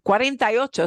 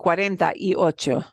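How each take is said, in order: First: The number is said quickly and run together. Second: The number is said slowly and clearly.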